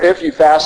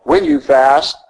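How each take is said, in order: First: "If" lightly stressed in "If you fast"; the preacher contrasts the wrong wording "If" for the congregation. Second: "When" stressed in "When you fast"; the preacher stresses "When" in Jesus's words to the congregation. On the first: Stress on "If". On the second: Stress on "When". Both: Shown as a demonstration. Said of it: "our Lord doesn't say".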